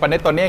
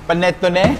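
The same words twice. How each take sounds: First: It is said with a Thai accent. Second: It is said with an Italian accent. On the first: "เรียกแบบภาษาสำเนียงไทยคือปาเนตโชเน่" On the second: "สำเนียงอิตาเลียนอะเรียกปาเนตโชเน่"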